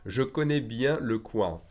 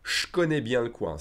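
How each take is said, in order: First: The vowel in 'je' is fully pronounced. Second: The vowel in 'je' is dropped, said faster.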